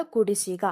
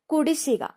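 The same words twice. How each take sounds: First: Said in the usual way. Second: കുടിശ്ശിക pitched higher, falling; announced word. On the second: Shown as a demonstration. Teacher announcing the word to students, pitched up. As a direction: call out കുടിശ്ശിക on a raised note. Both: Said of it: "ശായിക്ക് ഇരട്ടിപ്പുണ്ട്".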